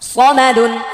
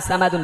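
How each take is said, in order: First: The first vowel is kept short. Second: The first vowel is drawn out long. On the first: The speaker calls it right. "সদ হচ্ছে আকার ছাড়া স স" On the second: The speaker calls it wrong. "সামাদুন বলা যাবে না, সামাদুন বলে এটা সিন হয়ে যাবে"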